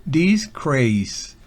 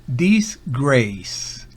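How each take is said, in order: The two takes are said the same way.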